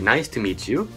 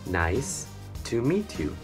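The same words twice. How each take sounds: First: It is said fast. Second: It is said slowly.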